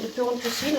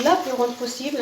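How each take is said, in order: First: Said in the usual way. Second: "La" leaned on as a self-correction of "le"; correcting herself, stress on "La". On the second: Shown as a demonstration. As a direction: repeat the phrase, pressing "La" to fix the article. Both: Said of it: "Je déforme un petit peu certains mots".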